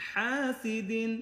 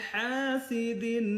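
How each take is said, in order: No difference in how they are said.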